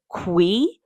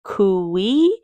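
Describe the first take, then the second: First: Cui said as one syllable, "kwee"; showing pronunciation. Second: Cui stretched into "koo-WEE", rising at the end; drawn-out pronunciation. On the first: Telling viewers how the guinea pig dish is pronounced, demonstrating. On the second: Telling viewers how the guinea pig dish is pronounced, sounded out. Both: Shown as a demonstration. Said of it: "It's pronounced Cui".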